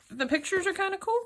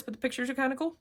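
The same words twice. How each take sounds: First: Delighted. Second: Said in the usual way. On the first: Real, not acted. First look at graphic novel.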